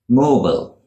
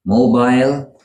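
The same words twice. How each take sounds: First: "mobile" as MOH-bul, higher start then falling; American "mobile", second vowel swallowed; American pronunciation. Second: "mobile" as MOH-bile, higher, held up for contrast; British "mobile", ending like aisle; British pronunciation. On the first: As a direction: end "mobile" in a weak bul. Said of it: "It is shortened in American English". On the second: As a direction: end "mobile" with a long I. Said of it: "that is the British pronunciation". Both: Shown as a demonstration.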